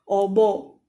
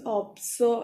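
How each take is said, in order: First: No s sound is heard in the middle. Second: An s sound is heard in the middle. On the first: The speaker calls it wrong. "You can't just say obo" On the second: The speaker calls it right. "It becomes opso"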